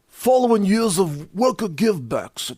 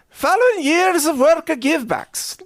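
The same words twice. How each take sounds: First: It is read in a tough Teamsters-style accent. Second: It is read in a put-on Irish accent. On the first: "I got to do this in the Teamsters dialect here" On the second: "I should have done that in an Irish voice"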